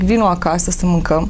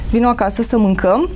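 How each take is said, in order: First: The voice stays level and ordinary throughout. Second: The voice is high and rises at the end. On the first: A plain invitation to come and eat. "una e să zic" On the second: It sounds like scolding and lecturing. "toate cuvintele se termină într-o tonalitate ridicată"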